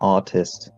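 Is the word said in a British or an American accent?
American. It is said in a plain American accent.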